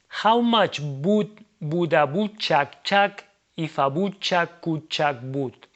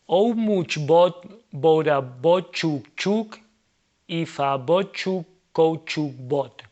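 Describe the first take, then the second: First: English sounds are attempted with Spanish vowel habits. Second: Words are read with full Spanish sounds throughout. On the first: "respect the English pronunciation rules, but we kept a Spanish pronunciation logic" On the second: "Without respecting the rules of English pronunciation in Spanish"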